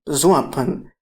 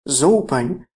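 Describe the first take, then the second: First: The word has an extra vowel between o and p. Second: The word has no vowel between o and p. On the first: This is the second occurrence, meaning smell or aroma. "whereas the second zoapan, zoapan" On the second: This is the first occurrence of the word. "the first zoapan could have been pronounced zopan"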